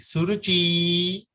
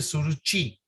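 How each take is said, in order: First: The final vowel is drawn out long. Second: The final vowel is short. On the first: "They will put a double E" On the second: "They don't say Suruchi"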